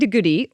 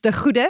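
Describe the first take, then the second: First: The G is a plain hard English sound. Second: The G is a rasping guttural throat sound.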